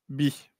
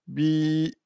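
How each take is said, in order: First: The vowel is short. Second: The vowel is long. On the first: The speaker calls it wrong. "et non pas bi" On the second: The speaker calls it right. "plus il y a la prolongation, eh bien ça fait bi"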